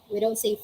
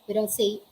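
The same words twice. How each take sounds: Both takes have the same delivery.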